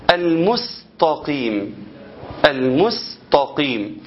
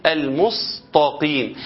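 First: Very slow المستقيم with a light, thin س; careful thin sin. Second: Slow المستقيم with the س thickened toward ص; heavy sad mistake. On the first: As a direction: stretch المستقيم keeping the س fine. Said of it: "أنا عاوزك تفرق بين السين وبين الصاد". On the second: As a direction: stretch المستقيم making the س heavy. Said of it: "اللي يقولها إيه". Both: Shown as a demonstration.

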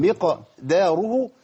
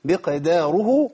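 First: مقداره drawn out very slowly with a bouncing qaf; qalqala again. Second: مقداره with the qaf bounced in qalqala, very slowly. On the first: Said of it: "اوعى تقول مقداره". (مقداره ببطء وقلقلة في القاف) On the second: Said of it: "لازم أبين القلقلة". (مقداره بقلقلة واضحة في القاف) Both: Shown as a demonstration.

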